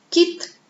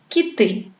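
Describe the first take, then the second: First: "Quitte" as one stressed syllable on a raised I; high, clearly stressed I in "Quitte". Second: "quitter" with a light first syllable and stressed ending; accent moved to the end of "quitter"; stress on second syllable. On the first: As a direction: put the accent on the I of "Quitte". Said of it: "l'accent tombe sur le son I". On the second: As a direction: lean on the last vowel of "quitter". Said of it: "il se déplace sur la deuxième syllabe". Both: Shown as a demonstration.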